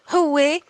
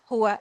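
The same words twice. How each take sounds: First: It is pronounced the Levantine dialect way. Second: It is pronounced the formal Standard Arabic way. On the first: "In the Shami, it's going to be هو" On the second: "This is the pronunciation in formal"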